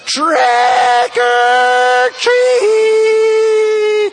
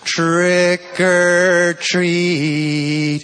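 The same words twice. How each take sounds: First: It is yelled at the loudest volume. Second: It is said somewhat louder than normal. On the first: "She yells in the loudest possible voice" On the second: "Says a little louder"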